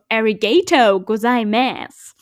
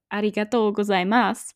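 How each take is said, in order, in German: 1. Es wird mit einem amerikanischen Englisch-Akzent gesagt. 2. Es wird mit einer muttersprachlich japanischen Aussprache gesagt. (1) "wie Amerikaner Danke sagen in Japanisch" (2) "was du eigentlich sagst"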